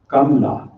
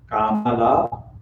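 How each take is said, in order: First: The name is said with two syllables. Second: The name is said with three full syllables. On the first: The speaker calls it right. "let me correctly, at least as far as I can, pronounce it. It is Kamla" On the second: The speaker calls it wrong. "so far we have heard Kamala"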